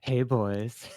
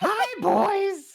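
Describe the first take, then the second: First: The voice is very breathy and airy. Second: The voice is campy and not breathy.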